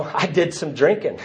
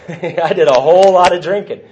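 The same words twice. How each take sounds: First: Said in the usual way. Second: Amused, emphatic correction landing on "whole lot"; stress on WHOLE LOT. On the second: Real, not acted. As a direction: lean hard on "whole lot". Emphatic correction of understated take.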